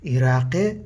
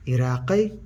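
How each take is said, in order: Both takes have the same delivery.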